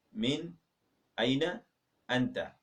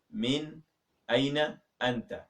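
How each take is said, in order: Both takes have the same delivery.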